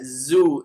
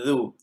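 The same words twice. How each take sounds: First: The consonant is a buzzing z between the teeth. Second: The consonant is a soft th with the tongue-tip. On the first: The speaker calls it wrong. "zu salah. Dia guna dua gigi seri atas dan bawah" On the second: The speaker calls it right. "Zu harus kita sebut zu"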